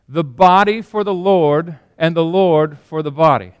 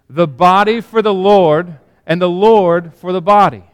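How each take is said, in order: First: It is said calmly, without extra force. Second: It is said forcefully, with strong conviction.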